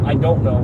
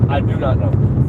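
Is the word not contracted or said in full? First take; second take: contracted; full. First: Not is contracted into don't. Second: Do and not are said fully and separately. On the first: "I said I don't know" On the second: "I speak more formally when I'm trying to emphasize"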